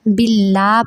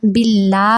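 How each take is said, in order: First: The L is pronounced light and thin. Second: The same.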